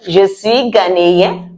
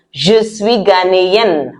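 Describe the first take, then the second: First: "ghanéen" ending in a nasal vowel, no N; open nasal ending. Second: "ghanéenne" ending in a clearly sounded N; closed N ending. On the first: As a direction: keep teeth apart at the end of "ghanéen". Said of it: "your teeth mustn't come together at the end". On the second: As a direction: close the teeth on the last N of "ghanéenne". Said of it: "it comes together". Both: Shown as a demonstration.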